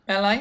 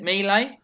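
First: "Melee" with a short e as in "bell", higher and rising; MEL-ay pronunciation. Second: "melee" with a long ee first, higher and rising; MEE-lay pronunciation. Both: Shown as a demonstration. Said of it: "How do you say it?".

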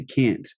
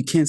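First: "can't" with a short front a, as in "cat"; American "can't". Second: "can't" pronounced "cahnt", long ah; British "can't". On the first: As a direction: correct it to the American "can't", rhyming with "pant". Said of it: "You have to say can't". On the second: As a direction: quote the British "can't" with its open back vowel. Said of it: "You can't say can't". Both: Retold or imitated.

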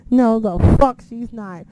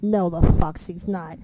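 First: Slow, loud, emphatic denial; retold loud disbelief. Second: Slow, firm denial; retold disbelief. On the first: Reacting to Carmella running down the ramp, loud emphatic disbelief. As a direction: belt out the denial, stretching it. Retelling disbelief, louder second take. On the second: Reacting to Carmella running down the ramp, slow disbelief. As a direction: deny it slowly, disbelieving. Retelling disbelief, first take.

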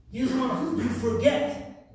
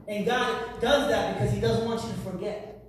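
First: Preacher pressing the line harder; emphatic repeat. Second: Said in the usual way. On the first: Real, not acted. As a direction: drive the point home the second time.

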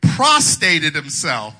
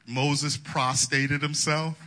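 First: "Prostrated" stressed, slow and loud; slow, loud "Prostrated himself" with a heavy stress on "Prostrated"; stressed slowly. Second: Said in the usual way. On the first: Shown as a demonstration. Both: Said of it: "That shows how uneducated I am".

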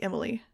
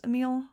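First: "Emily" said as three syllables, EM-uh-lee; correct name pronunciation. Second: "Emil" said uh-MEEL, without a final -ee; mistaken name pronunciation. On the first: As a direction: stress the first syllable of "Emily", ending in -lee. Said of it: "my name is pronounced like Emily". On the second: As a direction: stress the second syllable of "Emil", rhyming with meal. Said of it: "I thought it was pronounced Emil". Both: Shown as a demonstration.

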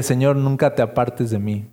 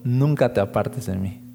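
First: Said in the usual way. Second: Softer, God gently returning the plea; quiet voice of God echoing back; a hint of a tender divine reply; God answering. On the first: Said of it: "Una vez le dije". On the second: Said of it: "recuerdo que me dijo".

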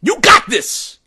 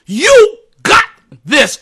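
First: Said in the usual way. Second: Plain. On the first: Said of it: "repeated encouragement, plain first take". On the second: Shown as a demonstration. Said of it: "repeated encouragement, raised second take".

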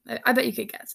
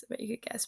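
First: Said in the usual way. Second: Softer, tossed-off repeat; murmured to yourself; quiet aside. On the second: Real, not acted. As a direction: drop the voice for a knowing aside.

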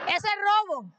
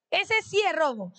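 First: Raised pitch, robo hit hard and falling; "Eso es robo" said up high with robo landing on a firm fall; stress on robo. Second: Said in the usual way. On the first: Shown as a demonstration. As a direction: press down on robo to make the point.

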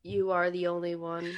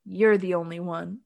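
First: Lower, softer, deadpan; flat, lifeless delivery; mock emotionless. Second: Deadpan, no feeling at all; flat, no emotion. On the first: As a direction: read it like a bored robot. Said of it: "more emotion from a cheese sandwich". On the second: Retold or imitated. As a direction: say it like you don't mean it. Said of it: "but with no emotion".

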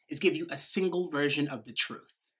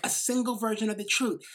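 First: Said in the usual way. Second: Single leaned on, whole phrase spelled out; stress on single. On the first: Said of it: "using their language of". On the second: Shown as a demonstration. Speaker to audience, echoing the key phrase, stress on single. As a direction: hit the word single. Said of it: "Yeah, like".

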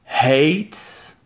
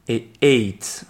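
First: Hate with a breathy h at the start; aspirated h. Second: Ate with no h. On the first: Teacher contrasting the h in hate. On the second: Teacher contrasting ate with no h. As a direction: start ate on the vowel. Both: Shown as a demonstration. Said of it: "faites bien la différence".

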